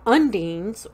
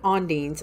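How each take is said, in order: First: The word begins with an 'un' sound. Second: The word begins with an 'on' sound. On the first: "U N D I N E S" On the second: "or some people pronounce it ondines"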